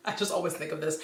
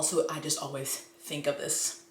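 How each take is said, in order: First: Quicker, with a laugh at the start. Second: Said in the usual way. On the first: Real, not acted. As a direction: laugh it off and rush it. Repeats line laughing, faster.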